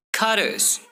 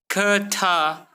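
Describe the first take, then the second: First: "cutters" joined as cudders. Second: "cutter" split as cuh-TAH; hard T. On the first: Teacher showing better flow, D sound in "cutters". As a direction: turn the T of "cutters" into D. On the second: Teacher showing what to avoid, hard T in "cutter". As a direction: give "cutter" a separate T. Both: Shown as a demonstration. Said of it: "replace T with D".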